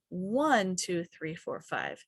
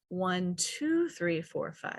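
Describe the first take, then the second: First: The word one is stretched and stressed. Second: The word three is stretched and stressed.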